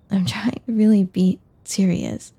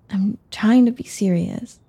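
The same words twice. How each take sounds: First: A halting restatement with "really" added for emphasis; insistent repeat. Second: Said in the usual way. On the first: Acted. Insisting to the teasing friend, with weight on "really".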